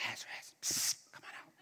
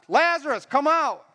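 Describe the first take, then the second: First: Hushed psst and whisper; secretive whisper. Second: Raised, higher calling voice; loud command. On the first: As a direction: whisper it so nobody else hears. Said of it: "He could have been like". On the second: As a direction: summon him so all can hear. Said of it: "Why do you think he said it loud?". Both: Acted.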